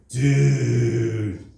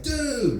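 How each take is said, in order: First: It is drawn out very slowly. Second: It is a quick call for attention. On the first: You really messed up. "if you say it really slow" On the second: Look at that over there. "hey, look at that over there"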